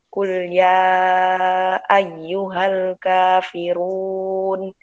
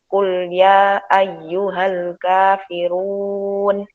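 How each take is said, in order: First: The long vowels are held for their full length. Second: The long vowels are cut short and not held. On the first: The speaker calls it right. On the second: The speaker calls it wrong.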